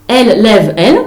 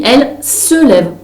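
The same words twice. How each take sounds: First: Said in the usual way. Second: «se» slowed and leaned on in «elle se lève»; teacher stress on se. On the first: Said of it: "elle lève qui?". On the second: Shown as a demonstration. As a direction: give «se» the weight, a bit slow. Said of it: "on dit". (appuyer sur «se», lentement)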